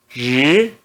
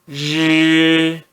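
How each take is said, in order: First: The pitch rises from middle to high. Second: The pitch stays high and level. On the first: "No segundo tom" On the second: "R mais I no primeiro tom"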